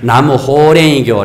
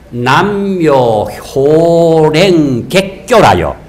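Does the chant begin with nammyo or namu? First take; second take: namu; nammyo. First: It begins with namu and ends horaengi-kyo. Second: It begins with nammyo and ends horaenggaek-kyo. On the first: The speaker calls it wrong. "나무 호랭이교, 호랭이교 이 카더라고" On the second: The speaker calls it right. "정확하게 가르게 남묘 호랭객교라요"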